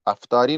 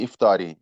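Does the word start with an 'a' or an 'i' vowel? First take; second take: a vowel; i vowel. First: The word begins with an 'a' vowel. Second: The word begins with an 'i' vowel. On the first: The speaker calls it wrong. "गलत लफ्ज इस्तेमाल करके अफ्तारी बोलते हैं" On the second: The speaker calls it right. "इसका सही इमला इफ्तारी है, अलिफ के नीचे कसरा है"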